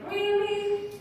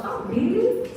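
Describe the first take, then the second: First: High-pitched, let-down "really"; a bit sad. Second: High, rising, delighted "really"; happy surprise. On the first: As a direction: question it high, as unwelcome news. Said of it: "happy and a bit sad". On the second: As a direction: react high-pitched to good news. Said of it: "See, I'm happy". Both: Shown as a demonstration.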